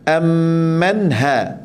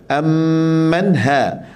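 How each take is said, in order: No difference in how they are said.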